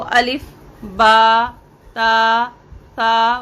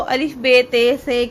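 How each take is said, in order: First: The letter names end in an 'ah' vowel. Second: The letter names end in an 'eh' vowel. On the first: This is the Arabic way of naming the letters. The speaker calls it right. "इसको अलिफ बा ता सा वगैरह इस तरह से अदा किया जाता है" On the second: This is the Urdu way of naming the letters. The speaker calls it wrong. "इसको अलिफ बे ते से की तरह से नहीं पढ़ा जाएगा"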